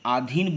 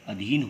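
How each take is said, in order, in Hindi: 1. पहला स्वर लंबा है। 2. पहला स्वर छोटा है। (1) "आधीन बोलते हैं तो यह अशुद्ध उच्चारण है" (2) "इसका शुद्ध उच्चारण क्या होगा? अधीन होगा"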